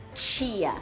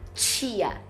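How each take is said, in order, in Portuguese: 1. Fala-se com sotaque gaúcho. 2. Fala-se com sotaque gaúcho.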